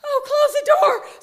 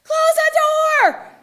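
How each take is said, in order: First: High, loud dawning "oh"; excited echo of a command; sudden realisation. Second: High, drawn-out full yell; piercing alarm from inside the head; yelling inner voice. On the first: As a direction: catch on to the order all at once. Echoing the voice's order as realisation. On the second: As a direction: bellow a slow, urgent command as loud as you can. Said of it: "yells about as loud as it can". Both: Retold or imitated.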